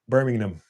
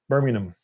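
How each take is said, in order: First: The name is said in a British accent. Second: The name is said in a British accent.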